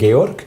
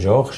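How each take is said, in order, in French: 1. Le nom se prononce à la manière suisse-allemande. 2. Le nom se prononce à la française. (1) "en Suisse on parle Georg" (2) "en français c'est Georges"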